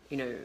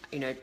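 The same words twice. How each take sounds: The two takes are said the same way.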